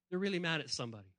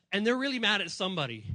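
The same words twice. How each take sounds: First: Softer. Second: Said in the usual way. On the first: Shown as a demonstration.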